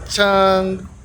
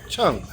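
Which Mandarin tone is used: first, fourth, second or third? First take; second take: first; fourth. First: The pitch stays high and level. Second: The pitch falls sharply from high to low. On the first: "Those are the four tones" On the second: "Those are the four tones"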